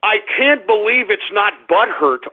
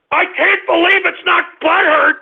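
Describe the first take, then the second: First: Said in the usual way. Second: High-pitched, indignant outburst; outraged cry. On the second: Real, not acted. Host fed up with being ridiculed, outraged cry. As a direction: wail it in fury.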